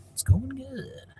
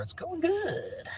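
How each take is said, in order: First: Voiceless, breathy repeat of the line; put-on whisper. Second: Much higher, slow, put-on voice; high silly voice. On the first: Answering a viewer again, now in a put-on whisper. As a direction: whisper it back like a secret. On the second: Answering a viewer's question about his night, high goofy voice.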